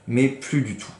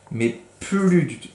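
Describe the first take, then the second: First: Said in the usual way. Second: "mais plus du tout" said slower and higher, pressed hard; emphatic. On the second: A narrator's reading. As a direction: lean on "mais plus du tout" slowly and high. Reader stresses missing tail. ("mais plus du tout" appuyé, lent et plus aigu)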